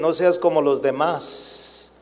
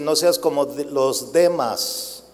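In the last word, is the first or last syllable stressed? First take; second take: last; first. First: The last word is stressed on its final syllable. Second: The last word is stressed on its first syllable. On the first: Do not be like other people. "Tiene un acento en la A" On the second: Do not be like Demas, who loved this world. "Si le quitamos el acento de la A, va a decir"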